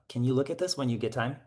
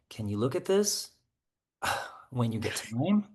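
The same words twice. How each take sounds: First: It is said in a flat, neutral tone. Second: It is said in an emotionally charged tone. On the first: It is a plain, harmless request. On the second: The request carries annoyance or pressure.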